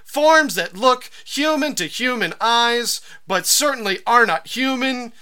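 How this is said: It is read expressively, like a recited poem.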